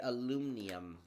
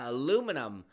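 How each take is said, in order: First: It is said with a non-American pronunciation. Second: It is said with an American pronunciation.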